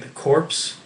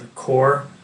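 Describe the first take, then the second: First: The word ends with an audible 'ps' sound. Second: The word ends in 'r' with no 'ps'. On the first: The speaker calls it wrong. "an incorrect pronunciation" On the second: The speaker calls it right. "It's actually called"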